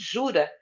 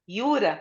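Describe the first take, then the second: First: The word begins with a zh sound. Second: The word begins with a y sound. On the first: This is how Latin-language speakers say it. "nós, como latinos, falamos jura" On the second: This is how it is said locally. "o J tem o som de I"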